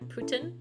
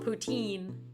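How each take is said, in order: First: The word ends with a short 'tin' sound. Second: The word ends with a long 'teen' sound. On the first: The speaker calls it right. "I heard a Canadian say pu- Putin" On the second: The speaker calls it wrong. "I think I mispronounced that"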